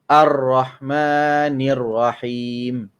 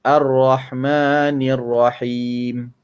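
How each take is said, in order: The two takes are said the same way.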